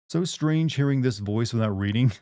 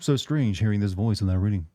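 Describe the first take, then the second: First: The voice is natural with normal pitch variation. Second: The voice is slightly lower and flatter in pitch. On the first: "my natural speaking voice" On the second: "I just like lower my lower my voice only slightly, ... so it's more flat"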